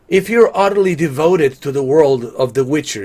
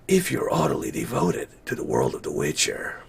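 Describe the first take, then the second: First: It is read in a plain, normal voice. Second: It is read in a put-on character voice.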